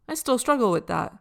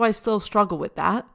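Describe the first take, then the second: First: It is said in a kind, gentle tone. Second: It is said in a harsh, judging tone. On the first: The speaker is curious and compassionate toward themselves. The speaker calls it right. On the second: The speaker is judging and blaming themselves. The speaker calls it wrong.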